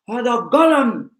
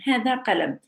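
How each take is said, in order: First: It is said in a strong Bedouin accent. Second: It is said in a plain, softer accent. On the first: "she took the accent of the Bedouin, which is a, like very strong" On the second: "we say qalam"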